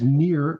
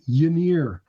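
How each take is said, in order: First: The name starts without a y sound. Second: The name starts with a y sound. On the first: The speaker calls it wrong. "It's not just near" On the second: The speaker calls it right. "It starts with a yeah sound"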